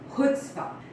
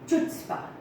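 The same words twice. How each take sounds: First: The word begins with a throaty h sound. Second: The word begins with a ch sound.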